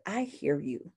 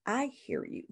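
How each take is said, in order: First: Said in the usual way. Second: I hear you lifted high and softened; soft, high, comforting reassurance; reassuring. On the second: Shown as a demonstration. Counselor reassuring a distressed client, high soft reassurance. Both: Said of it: "You're letting them know that".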